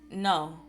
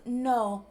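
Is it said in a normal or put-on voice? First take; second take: normal; put-on. First: It is said in his normal voice. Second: It is said in a put-on conch-shell voice.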